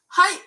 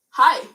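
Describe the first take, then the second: First: "Hi" said high and loud as Norwegian hei; Norwegian greeting. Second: Said in the usual way. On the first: Shown as a demonstration. Teacher showing learners a Norwegian greeting, high-pitched "Hi". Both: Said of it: "it sounds very similar".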